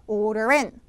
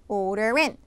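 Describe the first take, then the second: No difference in how they are said.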